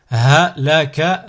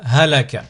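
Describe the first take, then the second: First: Slow, each syllable drawn out separately; split into syllables. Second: Syllables joined as one word. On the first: Teacher models a word for learners to repeat, split into syllables. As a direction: cut the word up, pausing between syllables. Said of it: "décomposer le mot". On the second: Teacher models a word for learners to repeat, joined in one go. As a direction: run the syllables together without pauses. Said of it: "le mot attaché". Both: Shown as a demonstration.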